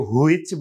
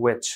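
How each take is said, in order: First: "which" said as "hu-ich"; wrong pronunciation demo. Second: "which" said as "wetch"; correct pronunciation demo. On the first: Teacher showing the "which" nobody says, as "hu-ich". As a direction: put h and oo before "ich" in "which". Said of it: "কেউ which বলবে না". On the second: Teacher showing "which" sounds like its homophone, w-initial. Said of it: "উচ্চারণ কিন্তু একই রকম". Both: Shown as a demonstration.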